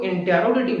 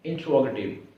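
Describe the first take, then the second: First: इंटेरोगेटिव with an extra e, in-te-ro-ga-tiv; इंटेरोगेटिव spelled out in five syllables, the wrong way; wrong pronunciation. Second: इंट्रोगेटिव clipped to four syllables, in-tro-ga-tiv; teacher gives इंट्रोगेटिव as in-tro, no e; इंट्रोगेटिव said the right way, tro not te-ro; correct pronunciation. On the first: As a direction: say इंटेरोगेटिव as the common mistake, in-te-ro. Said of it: "इसको इंटेरोगेटिव नहीं पढ़ना". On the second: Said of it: "इसको क्या पढ़ना है?". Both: Shown as a demonstration.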